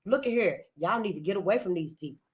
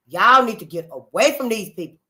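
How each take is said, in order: First: Said softly, almost to herself; quiet warning. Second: The same warning, louder and firm; now call it out so all hear. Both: Real, not acted. Warning repeated twice.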